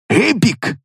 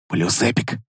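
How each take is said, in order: First: High, eager falling Эпик; excited. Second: Low, hushed rising эпик; excited. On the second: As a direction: savour the word эпик quietly, rising at the end. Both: Acted. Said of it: "с азартом повторил тот".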